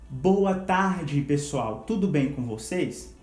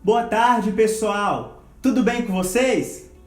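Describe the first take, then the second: First: It is said softly, at low volume. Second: It is said loudly, at high volume. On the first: "Você vai pronunciá-la baixa" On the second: "depois numa tonalidade alta"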